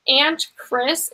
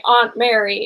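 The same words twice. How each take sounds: First: "Aunt" with a short flat "a", ant; pronounced like ant. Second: "Aunt" with an open "ah", ahnt; broad aunt. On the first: Explaining a relative's title, "Aunt" said as ant. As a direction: say "Aunt" exactly like the insect, ant. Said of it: "like, A N T Chris". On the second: Explaining a relative's title, "Aunt" said as ahnt. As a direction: say "Aunt" as ahnt, not ant. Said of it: "my Aunt Mary is Aunt Mary". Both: Shown as a demonstration.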